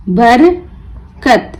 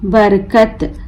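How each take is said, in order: First: बरकत slowly split, बर, pause, कत; broken into syllables. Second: Said in the usual way. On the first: Shown as a demonstration. Teacher breaking the word for learners, बर... कत with a gap. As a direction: pull बरकत apart into बर and कत. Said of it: "तोड़ तोड़ कर पढ़ना सीखें". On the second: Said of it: "मिलाकर पढ़ें".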